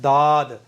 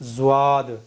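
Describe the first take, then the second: First: The first sound is a plain, light d. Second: The first sound is a z followed by w. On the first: "तो ये साफ साफ दाल बन रहा है" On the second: "यहाँ वाव भी आ रहा है और ये जा भी बन रहा है"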